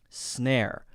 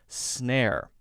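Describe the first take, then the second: Both takes have the same delivery.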